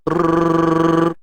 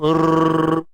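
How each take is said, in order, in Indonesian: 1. R digetarkan dengan tiga ketukan. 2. R digetarkan dengan dua ketukan. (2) "Kalau dua"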